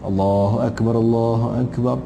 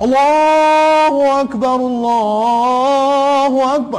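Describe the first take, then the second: First: It is said softly and gently. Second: It is said very loudly and forcefully.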